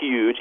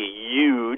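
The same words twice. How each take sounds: First: It begins with an aspirated H sound. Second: It begins with a Y sound, no H.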